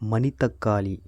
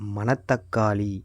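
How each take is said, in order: First: The second syllable has the vowel i. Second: The second syllable has the vowel a. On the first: This is the corrected standard form. The speaker calls it right. "திருத்தம் பண்ணி மணித்தக்காளி அப்படின்னு சொல்லணுமா" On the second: This is the everyday spoken form. The speaker calls it wrong. "பேச்சு வழக்கில் நாம் இப்போ சொல்லிகிட்டு இருக்கிறது"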